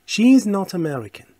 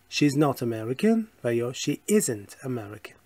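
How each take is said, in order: First: Slow, higher and louder with SHE punched; a slow, bold classroom model line with "She" stressed; emphatic model sentence. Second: Said in the usual way. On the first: Shown as a demonstration. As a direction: announce "She is not American" slowly and firmly, leaning on "She". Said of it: "full form set against repeat". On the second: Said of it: "repeat of the same sentence".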